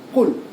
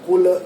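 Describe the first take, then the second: First: The final L is stopped with no vowel. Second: A short vowel sounds after the final L. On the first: The speaker calls it right. "Matikan dia betul-betul" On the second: The speaker calls it wrong. "Jangan ada Qul ... Lam ni selalu orang sebut le"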